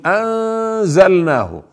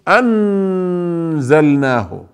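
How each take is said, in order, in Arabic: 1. النون مخفاة كغنّة أنفية. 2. النون تُنطق كاملة مع التصاق اللسان. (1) "نقول أنزلناه" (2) "يعني لا يكون اللسان ملتصق في أعلى الحنك، لا، يعني لا نقول أنزلناه"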